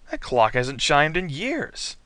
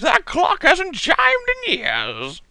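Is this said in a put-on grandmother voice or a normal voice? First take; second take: normal; grandmother. First: It is said in the speaker's ordinary voice. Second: It is said in a put-on old woman's voice. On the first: The speaker calls it wrong. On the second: The speaker calls it right.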